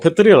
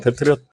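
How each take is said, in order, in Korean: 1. Patriot 단어는 L 소리로 끝나요. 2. Patriot 단어는 T 소리로 끝나요. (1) "패트리얼 아니구나" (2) "패트리어트 맞네요"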